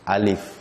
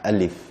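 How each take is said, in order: First: The word is said in a forceful, tense way. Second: The word is said in a relaxed, lazy way. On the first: The speaker calls it wrong. "Dia tak alif" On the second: The speaker calls it right. "sebutannya tu macam malas gitu ah"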